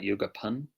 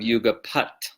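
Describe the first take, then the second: First: The word ends with an 'n' sound. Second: The word ends with a 't' sound. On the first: The speaker calls it wrong. "not yuga pun" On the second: The speaker calls it right. "usually you would have yuga pat uh, before an S sound"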